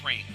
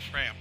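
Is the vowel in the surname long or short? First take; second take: long; short. First: The vowel is a long 'ay' sound. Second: The vowel is a short 'a' sound. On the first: The speaker calls it right. "It's Kyle Frame" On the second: The speaker calls it wrong. "not Fram"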